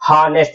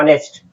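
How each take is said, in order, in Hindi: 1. यह शब्द एक साफ़ 'h' की आवाज़ से शुरू होता है। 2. यह शब्द सीधे एक स्वर की आवाज़ से शुरू होता है। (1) "एच है हार्ड निकल रहा है" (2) "एच हमारा साइलेंट होता है"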